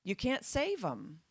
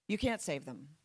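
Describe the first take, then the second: First: "save" drawn out with a falling tune; slow emphatic quote. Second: "can't" lifted with a rising tune; stress on can't. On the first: Retold or imitated. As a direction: slowly lean on "save" in "you can't save 'em". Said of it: "Alex's message of". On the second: Shown as a demonstration. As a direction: hit "can't" in "You can't save them".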